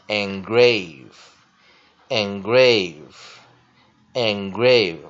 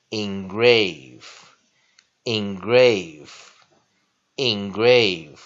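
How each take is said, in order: First: "engrave" started with "en" as in "end", said three times; "engrave" as "en-GRAVE", run together; original pronunciation. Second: "engrave" started with "in" as in "ink", slow and spaced; "engrave" as "in-GRAVE", said three times slowly; alternate pronunciation. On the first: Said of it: "或者我们刚刚原来的engrave". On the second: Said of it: "当然它可以念engrave". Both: Shown as a demonstration.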